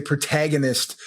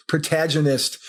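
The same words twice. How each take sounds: First: Protagonist said the American way; American pronunciation. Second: Protagonist said the Australian way; Australian pronunciation. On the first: Shown as a demonstration. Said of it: "whereas in America, we would say". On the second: Retold or imitated. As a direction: imitate an Australian saying "protagonist". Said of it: "in that Australian way".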